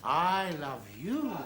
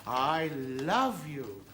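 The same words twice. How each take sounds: First: Low, slow, landing on "you"; stress on YOU. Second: Low, very slow, "love" drawn out; stress on LOVE. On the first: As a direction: draw it out towards a lingering "you". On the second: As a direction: stretch "love" long, low and falling. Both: Shown as a demonstration. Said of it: "so much depends on the inflection".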